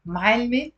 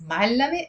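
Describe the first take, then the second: First: "ma'alme" with l running straight into me, rising; two-beat "ma'alme", no vowel after the l; two syllables, teacher. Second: "Ma'allame" with a vowel after the l, rising; three-beat "Ma'allame" with la in the middle; three syllables, educated. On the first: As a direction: say "ma'alme" as m'all-me, lifting at the end. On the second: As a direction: say "Ma'allame" as m'al-la-me, lifting at the end. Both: Shown as a demonstration. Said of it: "That's the difference".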